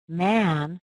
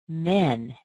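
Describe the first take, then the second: First: The vowel is an open ah sound. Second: The vowel is a narrow eh sound. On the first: The speaker calls it right. "we do use this vowel sound" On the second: The speaker calls it wrong. "If you don't open your mouth enough, you might say men"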